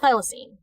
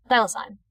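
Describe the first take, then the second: First: "thylacine" with a -seen ending; rejected pronunciation. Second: "Thylacine" with a -sine ending; corrected pronunciation. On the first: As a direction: pronounce "thylacine" as THY-la-seen. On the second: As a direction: pronounce "Thylacine" as THY-la-sign. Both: Shown as a demonstration. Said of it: "So it's not thylacine".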